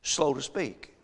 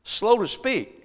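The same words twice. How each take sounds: First: Said in the usual way. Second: Each word drawn out slowly and a bit higher; preacher drawing out the scripture words; slow, stressed. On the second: Shown as a demonstration. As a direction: lean on SLOW, spreading out "Slow to speak.". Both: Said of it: "He didn't say slow of speech".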